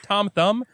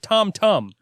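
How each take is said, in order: First: The second word begins with a th sound. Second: The second word begins with a t sound. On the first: The speaker calls it wrong. "Remember Tom Thumb?" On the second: The speaker calls it right. "It's actually called Tom Tum"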